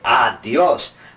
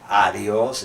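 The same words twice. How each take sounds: First: It is said with Spanish-style pronunciation. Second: It is said with English-style pronunciation. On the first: The speaker calls it right. "we say adios" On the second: The speaker calls it wrong. "we don't say adios"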